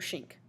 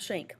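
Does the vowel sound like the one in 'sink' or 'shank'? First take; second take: sink; shank. First: The vowel sounds like the one in sink. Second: The vowel sounds like the one in shank. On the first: The speaker calls it right. "you pronounce this like the word sink" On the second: The speaker calls it wrong. "Not shank"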